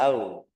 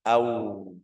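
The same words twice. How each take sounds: First: AU short with an unrounded ending; loose, weak-ended AU; wrong, lax AU. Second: AU ending in a long rounded U; low, held AU; lips pursed. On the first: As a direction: clip off the U of AU. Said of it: "Jangan au". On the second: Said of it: "usaha biar munyung bibir". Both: Shown as a demonstration.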